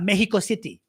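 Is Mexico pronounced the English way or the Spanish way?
Spanish. Mexico is pronounced with Spanish-style sounds. The speaker calls it wrong. "it's not Mexico City"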